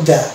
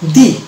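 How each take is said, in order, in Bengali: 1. স্বরধ্বনিটি একটি ছোট, দুর্বল 'uh' ধ্বনি। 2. স্বরধ্বনিটি একটি দীর্ঘ 'ee' ধ্বনি।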